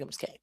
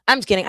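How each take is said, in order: First: Whispered just kidding; whispered aside. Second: Said in the usual way. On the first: Real, not acted. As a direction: breathe it as a secret aside.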